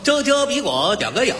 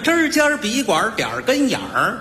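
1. 含糊不清，像舌头大了似的。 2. 发音清楚，很自然。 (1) "他一说" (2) "带有儿化音的字儿也说不出来"

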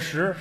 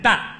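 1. 这个音节读 shi，是第二声。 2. 这个音节读 dan，是第四声。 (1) "石头的石" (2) "在称粮食的时候 不念石，念蛋"

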